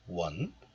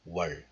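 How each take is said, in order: First: The syllable ends with an n sound. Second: The syllable ends with an l sound. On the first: This is the syllable on its own. "this is pronounced as one in isolation" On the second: The next l sound changes it. "this one becomes 월, like this"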